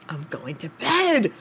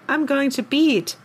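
First: The vowel in bed sounds like eh. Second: The vowel in bed sounds like ee.

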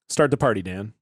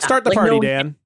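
First: It is said with calmer, lower energy. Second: It is said with very high excited energy. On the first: The speaker calls it right. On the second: The speaker calls it wrong.

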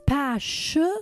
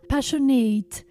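First: The word ends with a short, weak 'it' sound. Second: The word ends with a full 'eight' sound. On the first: The speaker calls it right. "it's passionate" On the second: The speaker calls it wrong. "It's not passionate"

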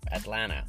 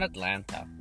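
First: The middle T sound is dropped. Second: The middle T sound is pronounced. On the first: The speaker calls it right. "we skip the T. Say Atlanta" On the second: The speaker calls it wrong. "not Atlanta"

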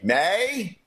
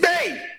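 First: The vowel sounds like the one in 'day'. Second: The vowel sounds like the one in 'see'. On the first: The speaker calls it wrong. "What's a May?" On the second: The speaker calls it right. "It's me!"

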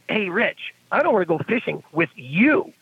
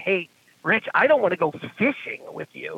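First: It sounds rejecting, objecting to Rich himself. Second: It sounds friendly, objecting only to fishing.

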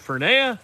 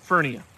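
First: The name is said not rhyming with hernia. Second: The name is said rhyming with hernia. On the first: The speaker calls it wrong. "Not Fernia" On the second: The speaker calls it right. "It rhymes with hernia"

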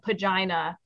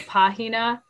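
First: The middle consonant is a hard g sound. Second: The middle consonant is a breathy h sound. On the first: The speaker mispronounces the Spanish word with English habits. The speaker calls it wrong. "the kind of kid that would have ... said pagina" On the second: The speaker uses the proper Spanish pronunciation. The speaker calls it right. "instead of pahina"

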